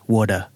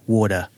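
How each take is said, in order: First: The middle sound is a soft D. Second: The middle sound is a soft D.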